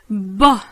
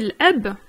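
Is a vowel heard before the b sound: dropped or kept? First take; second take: dropped; kept. First: The vowel is dropped and the b is doubled. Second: A vowel is heard before the b. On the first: "on va complètement squeezer le a de eb et on va se concentrer que sur le b" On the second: "donc on dit l'eb, normalement"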